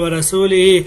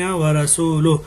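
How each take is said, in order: First: The vowel after the L is 'i'. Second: The vowel after the L is 'u'. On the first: God is free of the idolaters and of His messenger. The speaker calls it wrong. "लाम की पे पेश की बजाय उसने जेर पढ़ ली है" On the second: God and His messenger are free of the idolaters. The speaker calls it right. "यहाँ लाम पे पेश है"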